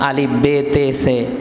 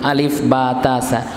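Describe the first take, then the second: First: The letter names end in an 'e' vowel. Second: The letter names end in an 'a' vowel. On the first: This is the older way of reading. "আগে আপনারা পড়তেন" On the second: This is the current way of reading. "এখন আমরা কি পড়ি?"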